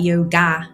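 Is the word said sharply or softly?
sharply. It is said sharply, in the usual way.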